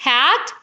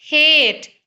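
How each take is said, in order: First: हैट with a short open a; short vowel. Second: हेट with a long stretched ए; long vowel. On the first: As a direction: keep हैट brief. (हैट में छोटा स्वर) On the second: (हेट में लंबा ए खींचकर) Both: Shown as a demonstration. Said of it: "ये minimal pairs इस तरह के हैं".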